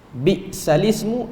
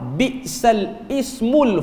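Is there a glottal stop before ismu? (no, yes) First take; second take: no; yes. First: The words run together with no glottal stop. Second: A glottal stop is heard before ismu. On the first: "kita baca dengan naqal ni" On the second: "Bacaan bacaan tanpa naqal"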